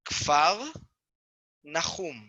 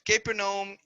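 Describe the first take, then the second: First: It begins with 'kf' and is two words. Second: It begins with 'ka' and runs as one word. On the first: The speaker calls it right. "The name should be pronounced like this" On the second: The speaker calls it wrong. "this is not the right way to pronounce the name"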